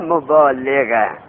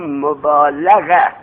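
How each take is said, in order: First: The vowel after l is i. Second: The vowel after l is a. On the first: It is the active participle. The speaker calls it wrong. "نه مبالغه" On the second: It is the verbal noun. The speaker calls it right. "بگو مبالغه مصدر"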